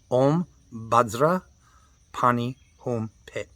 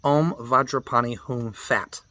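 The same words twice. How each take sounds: First: "Om Bhadra Pani Hum Pit", saying "Bhadra" for Vajra and "Pit" for Phat; Tibetan pronunciation. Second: "Om Vajrapani Hum Fat" said as written, with "Fat"; spelled-out reading. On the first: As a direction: say it the Tibetan way, slowly. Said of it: "it's Bhadra, not Vajra". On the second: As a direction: read the mantra as the spelling looks. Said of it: "It looks like". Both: Shown as a demonstration.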